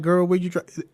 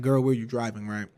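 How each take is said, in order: First: Said in the usual way. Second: Lower, softer inner-thought voice; in her head. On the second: Retold or imitated. Thinking it at mom who is driving, quiet inner voice. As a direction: drop it down as a private aside. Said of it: "I mean, in my head".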